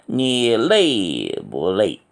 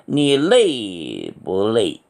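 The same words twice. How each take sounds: Both takes have the same delivery.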